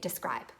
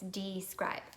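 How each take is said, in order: First: The word is said quickly with reduced sounds. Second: The word is said carefully with every sound clear. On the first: The speaker calls it wrong. "Sometimes we say it fast" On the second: The speaker calls it right. "but it's describe"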